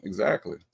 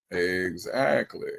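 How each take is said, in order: First: Said in the usual way. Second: "Exactly." stretched very slowly; a slow, knowing "Exactly."; slow drawn-out. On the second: Acted. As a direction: drag out "Exactly." for effect. Agreeing, then repeats it drawn out.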